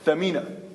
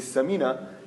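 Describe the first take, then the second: First: The name begins with a th sound. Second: The name begins with an s sound. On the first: Something valuable. The speaker calls it right. "the actual word is Thamina" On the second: An overweight lady. The speaker calls it wrong. "when you mispronounce it and say Samina"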